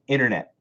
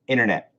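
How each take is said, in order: First: Sounds are reduced in relaxed everyday speech. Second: Sounds are reduced in relaxed everyday speech.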